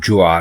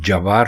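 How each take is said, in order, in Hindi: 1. j सीधे w में जा मिलता है। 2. j के बाद एक छोटा 'a' स्वर आता है। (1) "दुरुस्त लफ्ज जवार नहीं बल्कि ज्वार है" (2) "जीम के ऊपर जबर लगाकर जब इसको बोलते हैं तो इसका मतलब ही कुछ और हो जाता है"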